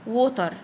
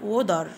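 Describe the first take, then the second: First: It is said with a British accent and clear t. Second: It is said with an American accent and flapped t. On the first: "لو هنطقها بالبريطاني بريتش هنقول ووتر" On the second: "لو هنقولها بالامريكي هنقول وودر"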